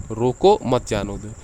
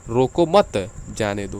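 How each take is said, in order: First: रोको, short stop, then मत जाने दो together; pause after रोको. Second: Slow रोको मत, clear stop, then जाने दो; pause after मत. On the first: Teacher showing how a comma changes meaning, pause after रोको. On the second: Teacher contrasting the moved comma for students, pause after मत. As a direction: join मत to रोको and break before जाने दो. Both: Shown as a demonstration. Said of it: "देखिए भाव कितना अंतर हो गया".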